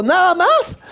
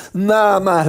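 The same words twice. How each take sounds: First: High, rising disbelief; surprised question. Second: Said in the usual way. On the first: Retold or imitated. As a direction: ask it high as if you can't believe it. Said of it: "Ella me dijo". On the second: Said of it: "le dije".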